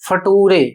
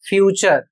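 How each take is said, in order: First: The middle consonant is a plain t sound. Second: The middle consonant is a ch sound. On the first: The speaker calls it wrong. "इसका उच्चारण करते हैं फटूरे" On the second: The speaker calls it right. "इस शब्द का उच्चारण होगा फ्यूचर"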